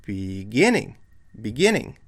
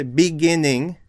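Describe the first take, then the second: First: Be-GIN-ning, stress on the middle GIN; "beginning" with GIN lifted over light ends; corrected stress. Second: "beginning" with the weight off the middle syllable, on BE; misplaced stress. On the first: Teacher corrects the wrong version, stress on GIN in beginning. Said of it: "No, it's". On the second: Teacher shows learners what not to say, BE stressed in beginning. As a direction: hit BE at the start of beginning. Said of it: "the stress is not over here". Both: Shown as a demonstration.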